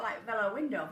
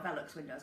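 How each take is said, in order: First: "Velo" said with no final ks, as VEE-lo; unsure pronunciation. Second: "Velux" said VEE-lux, ending in ks, a bit softer; corrected pronunciation. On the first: Telling viewers about the skylight, "Velo" said VEE-lo. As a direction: tries "Velo window" before correcting herself. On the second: Correcting herself for viewers, "Velux" said VEE-lux with a ks ending. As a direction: settles on "Velux windows". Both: Shown as a demonstration. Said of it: "however you pronounce it".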